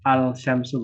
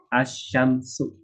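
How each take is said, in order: First: The L is clearly pronounced before the sh. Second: The L is silent; the sh sound is doubled. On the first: The speaker calls it wrong. "bukan al syamsu" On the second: The speaker calls it right.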